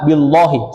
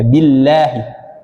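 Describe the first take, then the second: First: The 'lah' sound is heavy and thick. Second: The 'lah' sound is light and thin. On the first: The speaker calls it wrong. "Yang salah billahi, salah" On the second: The speaker calls it right. "maka dia dibaca tipis"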